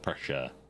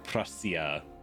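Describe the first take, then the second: First: Prussia is said with an English pronunciation. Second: Prussia is said with a German pronunciation. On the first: "as like an English speaker would pronounce it" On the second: "The German pronunciation of Prussia"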